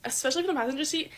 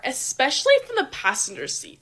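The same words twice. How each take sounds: First: "especially from the passenger seat" repeated softer and faster, as an aside; hushed quick afterthought; quick quiet repeat. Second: Said in the usual way. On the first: Shown as a demonstration. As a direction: slip the words "especially from the passenger seat" in again quickly and softly.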